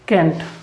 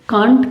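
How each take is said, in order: First: The vowel is a narrower 'ae'. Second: The vowel is an open, long 'aa'. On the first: "आप क्या बोलते हैं इसे? कैंट" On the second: "कांट की बजाय"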